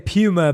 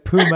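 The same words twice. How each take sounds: First: Puma is said the British way. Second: Puma is said the American way.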